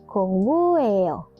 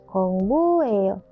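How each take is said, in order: No difference in how they are said.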